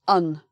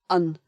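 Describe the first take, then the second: No difference in how they are said.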